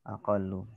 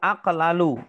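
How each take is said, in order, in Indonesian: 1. Dua bunyi l menyatu menjadi satu l rangkap. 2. Dua bunyi l terpisah dengan vokal di antaranya. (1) "Maka menjadi aqallu" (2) "Asalnya itu aqlalu"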